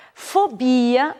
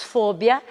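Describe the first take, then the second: First: Fobia stressed on BI; Portuguese pronunciation. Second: Fobia stressed on FO; Spanish pronunciation. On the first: Teacher giving the Portuguese word, stress on BI. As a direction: stretch BI in Fobia. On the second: Teacher giving the Spanish word, stress on FO. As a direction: hit FO in fobia. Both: Shown as a demonstration. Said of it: "em espanhol diríamos".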